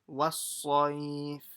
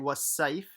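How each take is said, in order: First: The s sound is heavy and full-mouthed. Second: The s sound is light and thin. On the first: The speaker calls it right. "Make it full mouth" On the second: The speaker calls it wrong. "don't say was safe as a sin"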